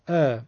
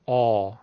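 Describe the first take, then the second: First: The vowel is thin and light. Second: The vowel is heavy and full. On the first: "معمولی" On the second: "اگه بخوام پرحجم بگم میگم"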